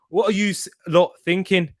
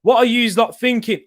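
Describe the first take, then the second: First: Badly attempted Teesside accent. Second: Said in the usual way. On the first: Shown as a demonstration. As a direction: have a shaky go at Teesside, drifting towards Scottish. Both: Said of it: "in a Teesside accent".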